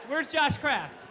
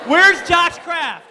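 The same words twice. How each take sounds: First: Said in the usual way. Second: Loud, slow, higher call. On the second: Real, not acted. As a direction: shout across the gym. Calling out a student.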